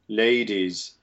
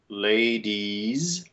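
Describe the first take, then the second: First: The last syllable has an open E vowel. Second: The last syllable has a closed E vowel. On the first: "In British English, it kind of splits the difference and tends to keep this quasi-open E" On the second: "The first one has E"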